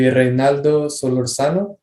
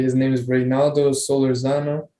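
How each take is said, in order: First: Name "Reynaldo Solorzano" said with a light Spanish accent. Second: Said in the usual way. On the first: Shown as a demonstration. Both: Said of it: "if I say it with the Spanish accent".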